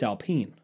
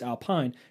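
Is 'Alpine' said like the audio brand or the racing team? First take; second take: racing team; audio brand. First: It is said like the racing team's name. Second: It is said like the audio brand's name. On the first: The speaker calls it right. "It's Alpine. Race car" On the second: The speaker calls it wrong. "It's not like the speaker's Alpine"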